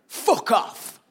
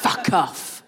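First: Higher-pitched Northern English man; curt dismissal in a put-on Northern English accent. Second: Higher-pitched mock Welsh accent. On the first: Man at the bar to Jen, in a Northern English accent. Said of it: "I don't know why I've made him Northern". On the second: Comedian correcting the man at the bar to Welsh accent. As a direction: redo it as a Welshman, put-on accent. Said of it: "he was Welsh".

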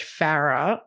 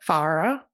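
First: Farrah with a short a, as in cat; trying out pronunciation. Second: Farrah with an open ah, as in far; trying out pronunciation. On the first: Co-host unsure of the daughter's name, trying out pronunciation. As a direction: say Farrah as FA-ruh, first vowel flat as in cat. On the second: Co-host second-guessing the daughter's name, trying out pronunciation. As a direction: say Farrah as FAH-ruh, first vowel as in father. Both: Shown as a demonstration. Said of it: "How do you say that name".

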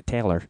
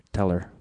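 First: Teller said carefully, /tʰeɪlə˞/; corrected pronunciation. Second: Teller with a Midwestern flat vowel, /tʰɛlə˞/; Chicago accent. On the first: Shown as a demonstration. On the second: Real, not acted. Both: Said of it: "my Chicago accent slipped out there".

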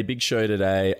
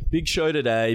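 First: Said in the usual way. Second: Higher hyped intro. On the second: Shown as a demonstration.

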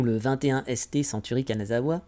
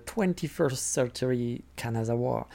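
First: English name read the French way, softly; French pronunciation of an English museum name; French version. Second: Slow, soft English with a heavy French accent; clumsy French-accented English; bad English accent. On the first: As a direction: say it all with French sounds. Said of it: "en français". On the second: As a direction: drag out the English name in a poor accent. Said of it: "avec mon accent de merde". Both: Shown as a demonstration.

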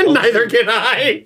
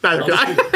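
First: Drawn-out Cockney through laughter; slow, higher joke Cockney; mock Cockney. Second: Said in the usual way. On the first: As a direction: stretch it into silly Cockney, laughing. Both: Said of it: "I can't do the Cockney".

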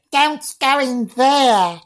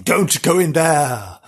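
First: Slow, very high mock girl; young girl's voice. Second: Said in the usual way. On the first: Shown as a demonstration. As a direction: draw it out as a ghostly little girl. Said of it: "I can say it in a girl". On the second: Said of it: "well, I, I can say it in a girl".

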